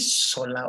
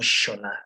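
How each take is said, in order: First: The name begins with a plain s sound. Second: The name begins with an sh sound. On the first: The speaker calls it wrong. "Is it Sola or Shola?" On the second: The speaker calls it right. "it's Shola, sir"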